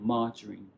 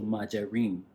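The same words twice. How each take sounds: First: The stress is on the first syllable. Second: The stress is on a later syllable. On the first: The speaker calls it right. "you put a stress at the beginning" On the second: The speaker calls it wrong. "as opposed to"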